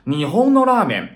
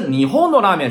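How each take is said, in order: First: Nihon is said on a flat pitch. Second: Nihon keeps its high-then-drop pitch accent. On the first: The speaker calls it right. "是变成平调了" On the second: The speaker calls it wrong. "不能是日本の拉面是不行的"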